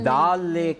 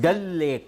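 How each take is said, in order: First: The vowel in the first word is long. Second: The vowel in the first word is short. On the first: This is how people commonly say it. The speaker calls it wrong. "ಡಾಲ್ lake ಅಂತ ಹೇಳ್ತಾರೆ" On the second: This is the correct pronunciation. The speaker calls it right. "ಅದರ ಸರಿಯಾದ ಉಚ್ಚಾರಣೆ ಡಲ್ lake ಅಂತ"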